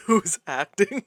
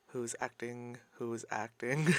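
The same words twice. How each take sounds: First: Said in the usual way. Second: Very soft, under the breath; hushed, almost whispered. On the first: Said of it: "repeated take aloud". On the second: Real, not acted. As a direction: murmur it to yourself. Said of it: "repeated hushed then aloud".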